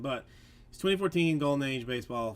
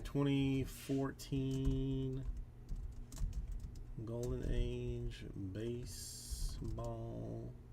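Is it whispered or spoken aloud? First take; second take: aloud; whispered. First: It is spoken aloud in a normal voice. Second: It is whispered.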